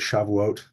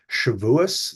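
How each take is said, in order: First: The word ends with a t sound. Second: The word ends with an s sound.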